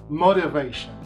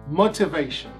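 First: The word is said in an American accent. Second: The word is said in a British accent. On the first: "Em inglês americano seria motivation" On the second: "Isso seria um sotaque britânico"

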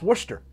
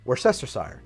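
First: The word is shortened, with several letters unsounded. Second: The word is said with all its syllables sounded. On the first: This is the English regional pronunciation. "the English will tell you, oh, but that's pronounced Worcester" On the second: This is the American pronunciation. "in American English, that is pronounced Worcestershire"

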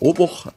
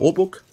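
First: The word is pronounced in a German way. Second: The word is pronounced in an English way.

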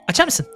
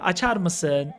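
First: The question is said quickly. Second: The question is said slowly. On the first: The child hopes to rush the father into agreeing. "Zannediyor ki hızlı söylersen babama açar. Şöyle yapıyor" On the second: This is how the child normally asks. "Normalde yavaş konuşur"

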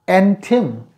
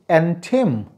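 No difference in how they are said.

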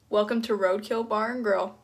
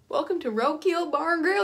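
First: It is said in the speaker's plain accent. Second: It is said in a put-on Southern accent.

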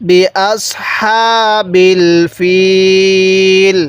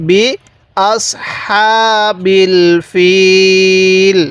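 No difference in how they are said.

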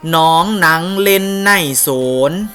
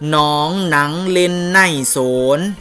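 No difference in how they are said.

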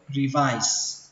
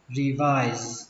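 First: The word ends with an s sound. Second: The word ends with a z sound. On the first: "chúng ta có thể đọc là âm sờ cũng được" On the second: "Nó kết thúc bằng âm giờ"

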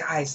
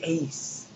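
First: The vowel sounds like the English word 'ice'. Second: The vowel sounds like the English word 'ace'. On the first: The speaker calls it wrong. "when you hear me say ice, I'm dead wrong" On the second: The speaker calls it right. "this should be ace. That's how I should be pronouncing it"

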